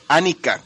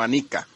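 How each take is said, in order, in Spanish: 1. El acento está en la primera sílaba. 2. El acento está en la segunda sílaba. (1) "con acento en la primera" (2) "no Anika"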